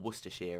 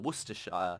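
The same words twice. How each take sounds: First: It is said the short British way. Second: It is said in a non-British way.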